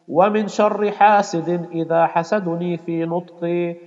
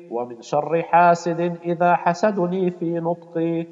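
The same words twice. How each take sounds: The two takes are said the same way.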